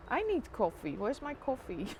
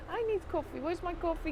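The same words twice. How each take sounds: First: Said in the usual way. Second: Higher, whiny coffee plea; mock whiny plea. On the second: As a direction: whine for coffee like a child. Mock whine repeated higher.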